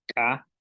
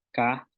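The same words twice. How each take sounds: First: "ka" with an ejective k; glottalised K. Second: Said in the usual way. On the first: Shown as a demonstration. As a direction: pop the k of "ka" with closed glottis. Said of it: "consonantes que tienen glotal". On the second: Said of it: "que no tienen glotal".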